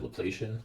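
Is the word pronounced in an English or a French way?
English. It is pronounced the English way. The speaker calls it wrong. "some people will pronounce that Laplacian. I have a habit of doing that. It's the English getting the best of me"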